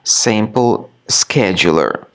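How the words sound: It is said with an American pronunciation.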